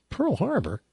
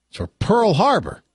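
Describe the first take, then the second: First: Higher, puzzled echo of his words; the Chinese guy confused by the accusation, mock bafflement; baffled question. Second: Louder, higher, hammed-up accusing punchline; angry accusation. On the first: Hammed-up disbelief. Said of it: "The Chinese guy says". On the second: Mock angry shout.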